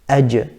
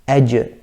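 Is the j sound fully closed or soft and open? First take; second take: closed; closed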